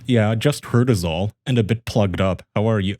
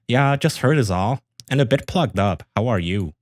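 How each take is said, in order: First: It is said in his normal voice. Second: It is said in a put-on girlish voice.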